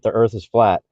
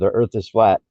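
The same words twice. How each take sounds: First: It is said in an imitated Kermit voice. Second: It is said in an imitated Cookie Monster voice. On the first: "Hi, I'm Kermit" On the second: "Hi, I'm Cookie Monster"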